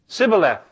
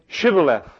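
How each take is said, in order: First: The word begins with a plain s sound. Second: The word begins with an sh sound. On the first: The speaker is from Ephraim. The speaker calls it wrong. "because he couldn't do the SH sound" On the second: The speaker is from Gilead. The speaker calls it right. "then say"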